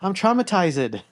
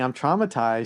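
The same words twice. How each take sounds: First: It is said in a Brazilian-style accent. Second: It is said in a plain English accent. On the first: "she would say" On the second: "instead of saying I'm traumatized"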